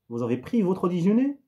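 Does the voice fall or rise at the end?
rise. The pitch rises at the end. It asks a question. "une ascension, une montée"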